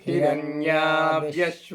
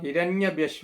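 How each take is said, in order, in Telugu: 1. 'hiranya' తర్వాత అచ్చు దీర్ఘం. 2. 'hiranya' తర్వాత అచ్చు హ్రస్వం. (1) "హిరణ్య అన్న దగ్గర దీర్ఘం ఉంది" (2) "హిరణ్యభ్యశ్వ కాదు"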